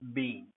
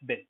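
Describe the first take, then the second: First: The word is said in its long, stressed form. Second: The word is said in its short, weak form. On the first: "when seen in itself, when stressed" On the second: "In a sentence"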